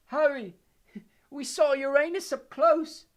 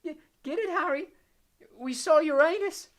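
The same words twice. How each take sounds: First: High, loud dazed giggle, slow; giggling feebly. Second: High, slow loopy repeat, louder; giggling feebly. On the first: Ron, cursed, giggles feebly at his pun. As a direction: laugh at your own joke, woozy. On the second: Ron repeats his pun to Harry, giggling. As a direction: push the joke again, giddy. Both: A narrator's reading. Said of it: "still giggling feebly".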